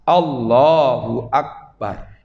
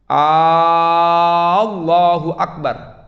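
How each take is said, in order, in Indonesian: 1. Vokal pertama pada Allah dibaca pendek. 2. Vokal pertama pada Allah dibaca panjang. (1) "bacanya harus pas" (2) "kalau A-nya dipanjangkan itu tidak boleh"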